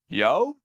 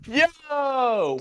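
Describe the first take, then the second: First: It is said as a rising question. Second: It is said as an excited exclamation.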